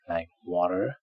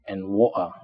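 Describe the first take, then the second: First: The middle consonant sounds like a soft d. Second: The middle consonant is a glottal stop. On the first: "In American English, it sounds more like d" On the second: "If we replace T with glottal stop"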